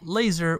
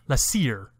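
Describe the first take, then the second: First: The a is the usual 'ay' sound. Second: The a sounds like the a in amplification. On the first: "we wouldn't pronounce it laser" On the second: "we would say laser"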